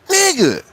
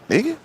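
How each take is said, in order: First: It is said in a harsh, scolding tone. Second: It is said in a puzzled, questioning pitch. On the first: The listener is told to straighten up. "if he's saying like in a bad way" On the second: The speaker is puzzled by the listener. "if in a confused way, put it in another pitch"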